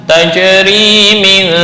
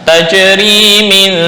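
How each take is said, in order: Both takes have the same delivery.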